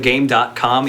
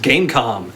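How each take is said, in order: First: The name is said with "dot" in the middle. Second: The name is said without "dot" in the middle. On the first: The speaker calls it wrong. "is not actually pronounced the Game dot com" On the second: The speaker calls it right. "It's just pronounced Gamecom"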